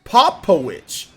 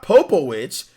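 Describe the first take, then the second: First: Popowich as "POP-po-witch", short first vowel; corrected name pronunciation. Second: Popowich with a long O first, "POH-po-witch"; wrong name pronunciation. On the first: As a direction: punch POP in Popowich, high, loud and slow. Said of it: "It's Popowich". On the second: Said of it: "not Popowich". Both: Shown as a demonstration.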